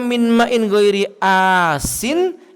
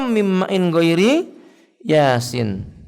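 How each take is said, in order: First: The last word starts with a plain vowel. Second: The last word starts with a y sound. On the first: "Dibaca dengan huruf alif" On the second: "atau sebenarnya dibaca dengan huruf ya"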